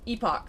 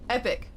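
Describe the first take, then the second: First: The word ends like lock. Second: The word ends like pick. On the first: The speaker calls it wrong. "You don't say epoch" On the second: The speaker calls it right. "It's epic"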